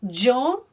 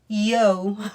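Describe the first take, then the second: First: It begins with a 'j' sound like in general. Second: It begins with an English 'y' glide sound. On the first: The speaker calls it right. "we make this sound J, just like a G" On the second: The speaker calls it wrong. "you're obviously not going to say yo, right? Because that would be the sound for your Y"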